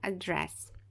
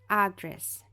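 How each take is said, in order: First: The stress is on the second syllable. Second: The stress is on the first syllable. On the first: The speaker calls it wrong. "E não address" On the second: The speaker calls it right. "a gente vai falar address, address"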